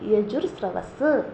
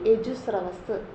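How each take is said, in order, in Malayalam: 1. "yaju" ന് ശേഷം r ശബ്ദം ഉച്ചരിക്കുന്നു. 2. "yaju" ന് ശേഷം r ശബ്ദം ഉച്ചരിക്കുന്നില്ല. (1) "ഒന്നെങ്കിൽ യജുർ സ്രവസ് എന്ന് പറയും" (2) "അല്ലെങ്കിൽ യജുസ്രവസ് എന്ന് പറയും"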